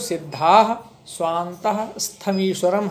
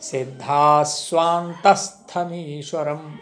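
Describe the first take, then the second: First: The words are split with breaks between them. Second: The words run together without any break. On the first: Extra syllable length is added to the verse. The speaker calls it wrong. "इसका उच्चारण यदि हम अलग अलग करते हैं" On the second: The verse keeps its correct syllable count. The speaker calls it right. "इसलिए इसको ऐसे पढ़ेंगे, एक साथ"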